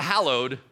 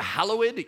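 First: "hallowed" in two syllables, hal-lowed; everyday "hallowed", no separate "ed"; modern pronunciation. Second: Put-on old-fashioned "hallowed", ending on a separate "ed"; old-school pronunciation. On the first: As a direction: run the -ed of "hallowed" into the second syllable. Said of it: "you're a little more modern". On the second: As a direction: sound the -ed in "hallowed" as its own syllable. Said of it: "you're really old school". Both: Shown as a demonstration.

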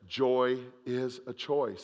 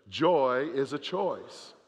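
First: Joy is a choice, slowly, choice drawn out; slow emphatic. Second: Joy is a choice, slow, JOY leaned on; mean every word of it; like you mean it. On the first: Preacher leading the congregation, slow and emphatic. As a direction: lay down the motto slowly. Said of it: "Say that with me". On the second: Preacher urging the church to say it with conviction. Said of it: "say it like you mean it". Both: Shown as a demonstration.

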